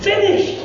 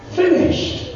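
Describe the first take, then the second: First: The word sung out high and voiced; ringing exclaim. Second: A breathy high whisper of the word; whispered last word. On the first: Preacher savouring Jesus' final word, high and ringing. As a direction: lift it up high in wonder. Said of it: "Isn't that a great word?". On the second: Acted. Preacher voicing Jesus' final word on the cross, whispered. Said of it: "this was his final word".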